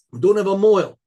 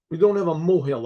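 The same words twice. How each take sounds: First: Desperate father insisting on "mohel", louder; insistent louder plea. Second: Said in the usual way. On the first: Acted. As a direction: say "We don't have a mohel" louder, pressing the point. Father pleading, repeats louder.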